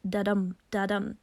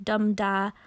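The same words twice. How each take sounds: First: "da-dum, da-dum" with the weight on each "dum"; unstressed "da", stressed "dum", twice over; iambic heartbeat rhythm. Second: "dum-da" with the weight on the first syllable; strong "dum" falling onto a weak "da"; trochee stress. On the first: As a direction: beat out "da-dum, da-dum" like a soothing heartbeat, weak then strong. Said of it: "sounding like a soothing heartbeat". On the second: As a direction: hit "dum", let "da" drop away. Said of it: "a trochee sounds like". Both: Shown as a demonstration.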